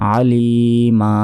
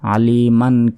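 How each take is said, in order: First: The word ends on a plain vowel. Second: The word ends with an added n sound. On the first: The reciter stops at this word. "যদি থামি ... মিম আলিফ জবর মা" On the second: The reciter continues without stopping. "যদি না থামি সেক্ষেত্রে আলিমান কাসিরন এভাবে পড়তে হবে"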